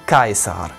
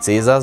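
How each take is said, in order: First: The word begins with a k sound. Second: The word begins with a ts sound. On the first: The speaker calls it right. "sondern Caesar" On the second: The speaker calls it wrong. "Cäsar hieß nicht Cäsar"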